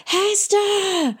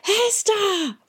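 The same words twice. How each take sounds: First: Throat-hurting high shout; boy shouting after the vanished girl. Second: High desperate shout; boy shouting for the girl a second time; shouting again. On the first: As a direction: call her name as loud as you can. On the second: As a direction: call out into the dark once more. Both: A narrator's reading. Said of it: "he shouted, so loud it hurt his throat".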